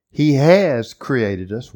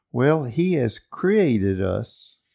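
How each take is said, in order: First: Slow and louder, stress on "has" with a rise; emphatic. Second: Slow, stress on "created" with a rise; restated calmly. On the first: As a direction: lean hard on "has", slowly. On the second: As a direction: draw out "created", unhurried. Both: Shown as a demonstration. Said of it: "Period said for emphasis".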